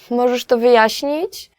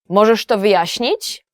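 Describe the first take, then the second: First: It sounds like politely asking a favor. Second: It sounds like angrily demanding an explanation.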